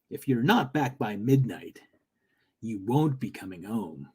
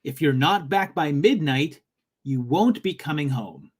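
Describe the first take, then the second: First: Low, ominous trailer voice; movie trailer guy voice. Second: Said in the usual way. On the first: Acted. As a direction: read it like a movie trailer narrator. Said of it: "I should say it like movie trailer guy".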